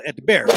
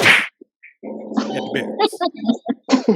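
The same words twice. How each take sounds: First: Said in the usual way. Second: "At the barracks" stretched very slowly; drawn-out whisper. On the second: Shown as a demonstration. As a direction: stretch the words out with a knowing grin. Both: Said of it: "repeats it drawn out".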